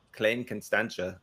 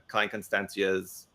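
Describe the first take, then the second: First: A shaky try at South African pronunciation; South African accent. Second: Said in the usual way. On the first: Shown as a demonstration. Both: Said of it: "I have a horrible South African accent".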